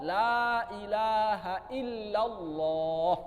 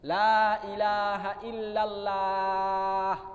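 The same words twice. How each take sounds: First: The 'lah' in Allah sounds full, toward 'o'. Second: The 'lah' in Allah sounds thin and light. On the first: The speaker calls it right. "Maka yang cocok adalah Allah" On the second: The speaker calls it wrong. "ini nggak enak didengar"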